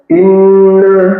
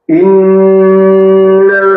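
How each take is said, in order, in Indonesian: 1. Bunyi sengau dipotong sangat pendek. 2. Bunyi sengau ditahan dalam waktu yang lama. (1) "tidak boleh dibaca satu harokat saja" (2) "tiga harokat"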